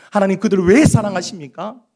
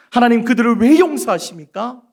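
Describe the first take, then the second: First: Louder, aggrieved question on 왜; indignant Jonah. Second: Higher and louder, 왜 pushed up; angrier Jonah. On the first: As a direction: Jonah protesting God's love, raised. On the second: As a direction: escalate the protest to near shout. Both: Acted. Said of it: "하나님의 그 사랑 앞에서 화를".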